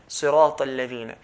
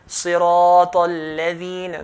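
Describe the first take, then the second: First: The long vowel is held for two counts. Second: The long vowel is held longer than two counts. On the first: The speaker calls it right. "just two counts" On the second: The speaker calls it wrong. "So it's not"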